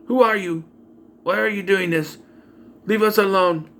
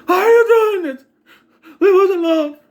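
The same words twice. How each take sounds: First: Raised pitch, same tune on every line; monotone acting. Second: Very high, loud desperate plea; convincing performance. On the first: Actress playing babysitter on the phone, monotone. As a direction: imitate a wooden actress reciting lines. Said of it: "It's just monotone". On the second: Acted. Babysitter begging the stalker to stop, high desperate cry. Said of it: "That's more convincing than what she was doing".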